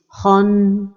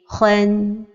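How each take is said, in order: First: The syllable sounds heavy and dark, like khon. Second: The syllable sounds light and clear, like khan. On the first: The speaker calls it wrong. "il ne faut pas l'emphatiser comme ceci" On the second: The speaker calls it right. "Donc la prononciation correcte est"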